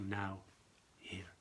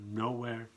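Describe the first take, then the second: First: It is split as 'now' plus 'here'. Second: It is split as 'no' plus 'where'. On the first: Being present in this moment. "change not the order, but the way how you speak, how you pronounce it" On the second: Being in no place at all. "the same letters"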